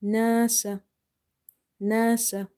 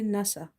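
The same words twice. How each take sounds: First: "Nasa" with a long drawn first a; correct long-vowel nasa. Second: "nasa" with the first vowel cut short; wrong short nasa. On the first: Teacher showing how the word is read, long-vowelled "Nasa". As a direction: stretch the first vowel of "Nasa", short ending. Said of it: "how we are reading the word? We never say nasa". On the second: Teacher showing what never to say, short-vowelled "nasa". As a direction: say "nasa" quickly, without stretching the a. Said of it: "We never say nasa". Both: Shown as a demonstration.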